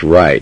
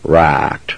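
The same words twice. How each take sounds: First: The word is said in a standard accent. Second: The word is said in a hillbilly accent. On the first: The speaker calls it right. "And it's right" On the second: The speaker calls it wrong. "not right"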